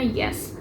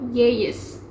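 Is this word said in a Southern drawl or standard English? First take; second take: standard English; Southern drawl. First: Said quickly with a short, single vowel. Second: Said slowly with the vowel drawn into a glide. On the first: "dalam standard English dibacanya yes" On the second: "tapi di dialek ini dibacanya menjadi yes"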